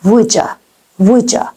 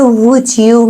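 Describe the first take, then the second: First: "woulda" said as "wouldja"; reduced form. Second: "would you" as two words; full form. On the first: Teacher showing how Americans say it, reduced. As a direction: melt d and y into a j in "woulda". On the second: Teacher naming the phrase before reducing it, full form. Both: Shown as a demonstration.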